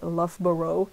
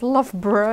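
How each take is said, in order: First: It is pronounced just as it is spelled. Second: It is pronounced the local way, not as spelled. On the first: The speaker calls it wrong. "because that's what's written" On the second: The speaker calls it right. "it's Loughborough"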